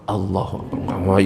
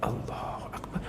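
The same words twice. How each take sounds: First: The phrase is said loudly. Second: The phrase is said quietly. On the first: It disturbs the people nearby. The speaker calls it wrong. "Itu ganggu itu namanya" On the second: Only the speaker's own ears need to hear it. The speaker calls it right. "Minimal terdengar telinga"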